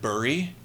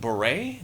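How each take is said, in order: First: It sounds like the word 'bury'. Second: It sounds like the word 'beret'. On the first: The speaker calls it wrong. "is that how you pronounce it?" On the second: The speaker calls it right. "how to pronounce it properly"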